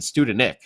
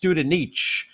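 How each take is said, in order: First: The name ends with a hard k sound. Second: The name ends with a ch sound. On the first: The speaker calls it wrong. "I think we were pronouncing that wrong last year. We were saying Studenik" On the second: The speaker calls it right. "So I believe it's Studenich"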